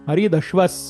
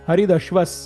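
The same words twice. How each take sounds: The two takes are said the same way.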